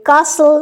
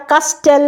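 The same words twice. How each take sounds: First: কাসল with a silent t, said slowly; কাসল, the t left silent; correct pronunciation. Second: কাস্টেল with the t sounded, as a wrong example; কাস্টেল spoken with the t, marked as wrong; wrong pronunciation. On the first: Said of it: "আমি বলি কাসল". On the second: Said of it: "আমি বলি না কাস্টেল". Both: Shown as a demonstration.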